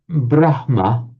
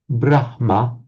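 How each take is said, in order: The two takes are said the same way.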